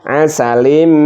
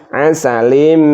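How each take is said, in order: The two takes are said the same way.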